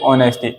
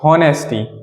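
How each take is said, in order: First: The word begins directly with a vowel sound. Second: The word begins with an audible h sound. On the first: The speaker calls it right. "इसमें ये एच silent होता है" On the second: The speaker calls it wrong. "आपने कहा हॉनेस्टी। हॉनेस्टी जी नहीं"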